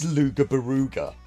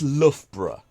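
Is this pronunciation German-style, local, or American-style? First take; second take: American-style; local. First: It is an American speaker's attempt at the name. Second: It is the pronunciation used by local residents. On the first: A foreign visitor guessed at the name. The speaker calls it wrong. "their best stab at it was" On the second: This is how people who live there say it. The speaker calls it right. "to the locals"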